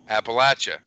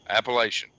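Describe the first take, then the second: First: It is pronounced the local way. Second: It is pronounced the outsider way. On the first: The speaker is from the region. The speaker calls it right. "that's how we say the word" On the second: The speaker is not from the region. The speaker calls it wrong. "That is not how we say Appalachia"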